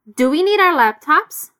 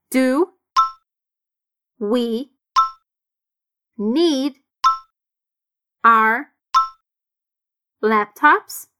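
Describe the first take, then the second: First: "Do we need our laptops" run together, "our" reduced; linked sounds. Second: Slow, each word separate. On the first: Teacher modelling connected speech. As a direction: connect the words smoothly. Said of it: "os sons bem conectados". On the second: Teacher breaking the question into single words. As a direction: dictate the question one word at a time. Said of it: "sons bem conectados". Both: Shown as a demonstration.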